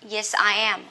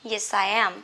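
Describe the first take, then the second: First: The words are said separately. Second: The words are linked together smoothly.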